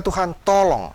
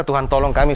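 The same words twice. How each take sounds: First: "Tuhan, tolong" lifted higher and reaching out; open cry for help. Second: Said in the usual way. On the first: Shown as a demonstration. Preacher showing the right way to call on God, open plea. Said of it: "Tapi berkata". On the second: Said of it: "Jangan berkata ... sambil mendekap seperti ini, bukan".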